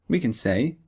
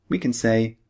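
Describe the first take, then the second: The two takes are said the same way.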